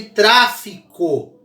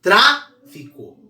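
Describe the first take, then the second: First: "tráfico" read aloud slowly, TRÁ strongest; stress on first syllable. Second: "Tráfico" broken up, strong TRÁ, pause, then fi-co; syllable split. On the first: Teacher reading the example aloud, TRÁ stressed in "tráfico". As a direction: punch TRÁ in "tráfico", then fi-co. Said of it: "ler a palavra em voz alta". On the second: Teacher pointing out the strong syllable, TRÁ isolated in "Tráfico". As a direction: hold TRÁ apart, slowly, then drop to fico. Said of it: "Tra é a mais forte". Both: Shown as a demonstration.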